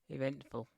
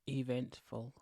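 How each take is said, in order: First: The word is said in a lively, expressive tone. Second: The word is said in a flat, unexpressive tone. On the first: The speaker calls it right. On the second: The speaker calls it wrong.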